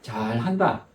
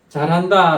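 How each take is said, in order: First: It is said in a sarcastic, mocking tone. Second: It is said in a sincere, praising tone. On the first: It mocks the person and doubts it will go well. "비꼬는 말이거나 좀 비웃는 말이죠" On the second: It is genuine praise for doing something well. "이건 정말 잘하는 일에 대해서 칭찬하는 말이죠"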